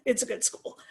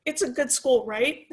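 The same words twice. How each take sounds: First: "it's a good school" said as a sure statement, falling on "school"; settled answer. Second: "it's a good school, right?" asked with a rise on "right"; dad's unsure question. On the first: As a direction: answer it firmly, letting "school" drop. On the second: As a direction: ask it as a doubtful question, lifting "right". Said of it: "he comes home on Monday from work and he goes". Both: Retold or imitated.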